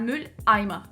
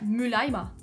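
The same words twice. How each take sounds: First: A glottal catch separates the two syllables. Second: The syllables run together without any break. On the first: The speaker calls it right. "между первым и вторым слогом Mülleimer нам нужно вставить немножечко вот этот э... Knacklaut" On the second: The speaker calls it wrong. "Если бы немецкий был английским... в английском мы все так тянем"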